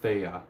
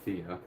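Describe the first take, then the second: First: The name is said with its Greek pronunciation. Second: The name is said with an Americanized pronunciation. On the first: "in Greek it's pronounced Thea" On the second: "an Americanized version of of the name would be"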